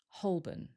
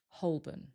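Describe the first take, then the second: First: The L is very lightly pronounced. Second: The L is very lightly pronounced.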